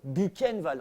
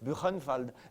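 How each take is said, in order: First: The name is said with French pronunciation. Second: The name is said with German pronunciation. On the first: "on le prononçait à la française" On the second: "Normalement, on aurait dû dire"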